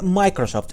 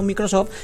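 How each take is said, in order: First: The name is pronounced the English way. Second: The name is pronounced the Spanish way. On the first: The speaker calls it right. "se dice Microsoft" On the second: The speaker calls it wrong. "y no Microsoft"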